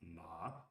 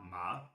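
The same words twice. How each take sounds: First: The pitch stays low. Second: The pitch rises from middle to high. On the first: "the low" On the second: "the rising"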